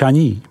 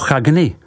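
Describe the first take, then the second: First: The name is said with French sounds. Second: The name is read as it is spelled.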